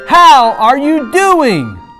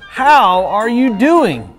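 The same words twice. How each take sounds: First: It is said more loudly. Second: It is said at normal volume.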